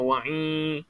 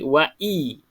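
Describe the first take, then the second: First: The vowel is pushed through the nose, nasal. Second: The vowel comes from the throat, not nasal. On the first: The speaker calls it wrong. "jangan wa'i" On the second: The speaker calls it right. "Jadi wa'i. I dekat dalam"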